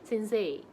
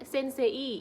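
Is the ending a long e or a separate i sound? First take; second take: long e; separate i. First: The final vowel is held as one long e. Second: The final i is pronounced as a separate sound. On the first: The speaker calls it right. "dipanjangnya aja" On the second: The speaker calls it wrong. "Jangan sensei, i-nya nggak usah di ini"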